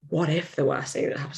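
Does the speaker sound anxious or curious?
curious. It sounds like a calm, open, genuine question. The worst outcome is calmly examined. The speaker calls it right. "changing the tone"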